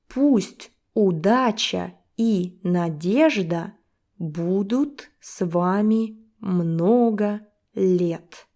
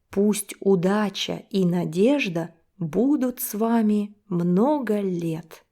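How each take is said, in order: First: It is read at a slower, careful pace. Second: It is read at a faster pace.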